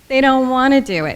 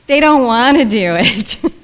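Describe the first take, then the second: First: It is said in a normal voice. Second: It is said in a whiny voice.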